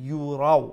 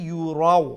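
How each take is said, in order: The two takes are said the same way.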